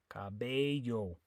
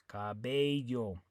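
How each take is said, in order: Both takes have the same delivery.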